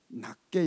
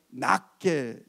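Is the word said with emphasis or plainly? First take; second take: plain; emphasized. First: The word is said plainly without extra emphasis. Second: The word is said with strong added emphasis. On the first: Others are regarded as lower than oneself. The speaker calls it wrong. "그럼 이거 안 됩니다" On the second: Others are regarded as better than oneself. The speaker calls it right. "액센트를 줘서"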